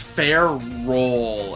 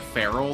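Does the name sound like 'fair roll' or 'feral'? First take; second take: fair roll; feral. First: It is said as two parts, fair and roll. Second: It is said like the word feral. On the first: The speaker calls it right. "it's Fair Roll, as in like Ferris, as in iron, and roll as in ball" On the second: The speaker calls it wrong. "I've been pronouncing it as like Feral this whole time"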